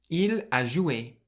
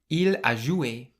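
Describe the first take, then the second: Both takes have the same delivery.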